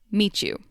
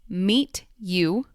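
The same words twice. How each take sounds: First: The T and Y merge into a ch sound. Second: The T and Y are said as separate sounds. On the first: "two sounds come together and make one new sound"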